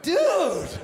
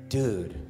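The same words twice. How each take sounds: First: It is said startled and indignant. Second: It is said low, quiet and grave. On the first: Caught in a private moment. "If he was having a wank in the bathroom and I walked in on him" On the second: Something serious and secret is coming. "If he was gonna tell you something really serious that nobody else could know about"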